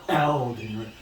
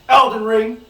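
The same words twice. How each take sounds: First: It is said dramatically, in a breathy voice. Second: It is said plainly, in a normal voice.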